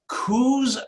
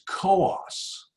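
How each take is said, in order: First: Coos is said the way Oregon locals say it. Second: Coos is said the way New Hampshire locals say it. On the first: "am I pronouncing Coos correctly?" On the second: "how we pronounce that in New Hampshire"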